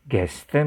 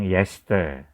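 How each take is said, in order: First: It starts with a hard g sound. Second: It starts with a y sound, Berlin-style.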